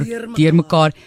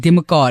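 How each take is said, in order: First: The R sound is clearly pronounced. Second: The R sound is dropped. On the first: The speaker calls it wrong. "like a door. ... But you don't say it like that" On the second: The speaker calls it right. "you still say deer mekaar without saying the R"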